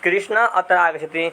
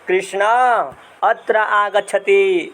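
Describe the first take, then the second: First: All vowels keep their normal short length. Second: One vowel is drawn out, as when calling afar. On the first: The person addressed is sitting nearby. "मेरे पास में बैठेगा बैठा रहेगा व्यक्ति" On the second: The person addressed is far away. "वही व्यक्ति जब दूर बैठा होगा हमसे"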